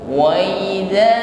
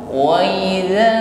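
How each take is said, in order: No difference in how they are said.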